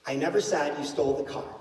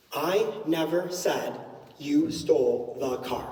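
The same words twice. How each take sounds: First: Said in the usual way. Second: NEVER leaned on, said slowly; slow demo with weight on never; stress on NEVER. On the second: Shown as a demonstration. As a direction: hit the word never and draw it out. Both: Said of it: "how many different meanings this sentence can have".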